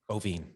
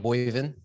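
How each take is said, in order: First: The name is said like 'Bo-vine'. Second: The name is said like 'Boy-vin'. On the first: The speaker calls it right. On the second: The speaker calls it wrong. "I still said it wrong"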